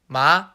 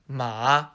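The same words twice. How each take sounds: First: The pitch rises upward. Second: The pitch dips down then rises. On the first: "the second tone goes up" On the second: "the third tone goes down and then back up"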